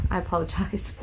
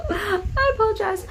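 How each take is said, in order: First: Said in the usual way. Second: High, laughing apology. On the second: Real, not acted. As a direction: giggle through the words.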